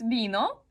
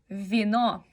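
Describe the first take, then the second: First: It begins with a b-like sound. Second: It begins with a true v sound. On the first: This is how Spanish speakers say it. "Para ustedes es vino" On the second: This is how Russian speakers say it. "para nosotros es vino"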